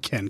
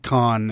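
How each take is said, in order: First: The vowel is front, like in 'Ken'. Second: The vowel is open, like in 'con'. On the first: The speaker calls it right. "it's actually more like Ken" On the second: The speaker calls it wrong. "It's not con"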